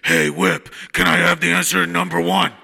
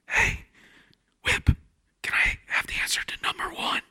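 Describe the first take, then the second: First: It is said in a loud, raspy voice. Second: It is said in a quiet whisper.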